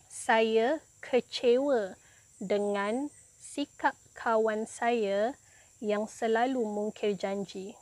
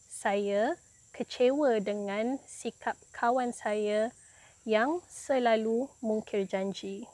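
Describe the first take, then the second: No difference in how they are said.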